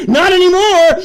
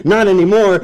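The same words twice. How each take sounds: First: "Not anymore" yelled high; shouted. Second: Said in the usual way. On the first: Retold or imitated. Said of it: "is screaming to you". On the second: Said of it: "calm restatement".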